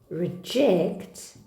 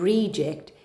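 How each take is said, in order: First: The stress is on the second syllable. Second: The stress is on the first syllable. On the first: "that would have been iambic" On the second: "is trochaic"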